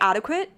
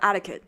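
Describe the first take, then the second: First: The middle consonant is a kw sound. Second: The middle consonant is a plain k sound.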